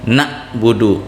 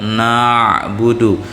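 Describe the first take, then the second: First: The throat sound is cut off abruptly, like a catch. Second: The throat sound is made softly, deep in the throat. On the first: The speaker calls it wrong. "dikajut. Nah, salah bacaannya" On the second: The speaker calls it right.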